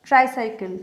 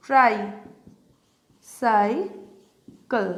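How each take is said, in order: First: Said in the usual way. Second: "tricycle" very slowly, long pauses between three syllables. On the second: Shown as a demonstration. Teacher showing how tricycle breaks up, syllable by syllable. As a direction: isolate each syllable of "tricycle". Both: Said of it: "আমি ভেঙে দেখাই".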